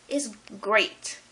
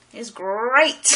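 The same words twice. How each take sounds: First: Said in the usual way. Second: "great" louder, drawn out with a rolled r; hammed-up GREAT. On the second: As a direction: playfully roll and stretch the word "great". Repeats it hammed up, then laughs.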